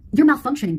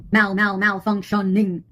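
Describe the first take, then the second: First: Said in the usual way. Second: Slow, broken-up "Mal, mal, malfunctioning"; glitching stutter. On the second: Pretend. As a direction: stick on "Mal", then spell out "malfunctioning" syllable by syllable. Mimics a glitch, syllable by syllable.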